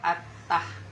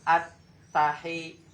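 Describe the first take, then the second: First: The 'h' closes the syllable with no vowel. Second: The 'h' is followed by an 'i' vowel. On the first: The speaker calls it wrong. "Haknya bukan mati seperti itu" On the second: The speaker calls it right. "haknya itu barisnya di bawah"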